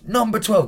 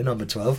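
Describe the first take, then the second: First: Higher-pitched imitation of an instructor's call. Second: Said in the usual way. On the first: Instructor summoning him by his number, calling out.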